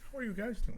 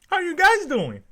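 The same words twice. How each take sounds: First: It is said in his normal voice. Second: It is said in a Dora impression.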